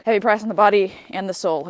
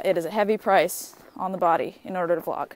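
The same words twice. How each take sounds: First: Heavy price, pushed louder; louder emphatic. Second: Said in the usual way. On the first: Shown as a demonstration. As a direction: repeat it with dramatic weight. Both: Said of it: "repeated with emphasis".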